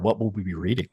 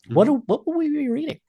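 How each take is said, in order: First: The voice sounds normal, not squeaky. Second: The voice sounds squeaky. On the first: The speaker calls it right. "without a squeaky voice" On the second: The speaker calls it wrong. "let me say that again without a squeaky voice"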